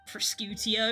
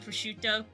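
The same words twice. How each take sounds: First: Every letter of the word is sounded out. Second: The word is said with its usual sounds. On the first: Some people say it this way. The speaker calls it wrong. "they're like pronouncing every single letter" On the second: This is how it is meant to be said. The speaker calls it right. "I think it's meant to be prosciutto"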